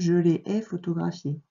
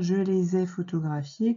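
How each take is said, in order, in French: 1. Aucun son z ne relie 'les' à 'ai'. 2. Un son z relie 'les' à 'ai'. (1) "Quand on parle, on ne dit pas comme ça" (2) "c'est plus joli de dire"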